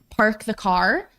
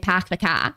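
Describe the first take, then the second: First: It is said in a general American accent. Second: It is said in a Boston accent, without the r.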